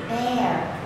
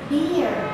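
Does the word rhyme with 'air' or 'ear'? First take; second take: air; ear. First: The word rhymes with 'air'. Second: The word rhymes with 'ear'. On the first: The speaker calls it right. "This word is bear" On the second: The speaker calls it wrong. "Oops, no"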